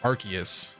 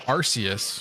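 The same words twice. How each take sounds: First: The c is said as a hard k sound. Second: The c is said as a soft s sound. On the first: This is the current official way of saying it. "the new correct pronunciation" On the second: This is the older habitual way of saying it. "I got used to saying"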